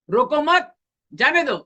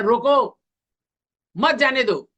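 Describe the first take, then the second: First: "रोको मत" joined and rising high, pause, then "जाने दो"; pause after मत. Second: "रोको" called out as its own command, then a pause before "मत, जाने दो"; pause after रोको. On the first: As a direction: run "रोको मत" together loudly, break, then a high, falling "जाने दो". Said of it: "और दूसरा हो सकता है". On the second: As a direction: stop after "रोको", then run "मत, जाने दो" together, higher and louder. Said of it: "इसका भावार्थ दो तरीके से हो सकता है". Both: Shown as a demonstration.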